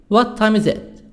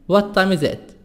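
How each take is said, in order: No difference in how they are said.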